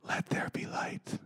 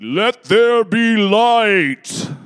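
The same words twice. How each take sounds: First: It is said in a quiet, plain voice. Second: It is said in a booming, declaring voice.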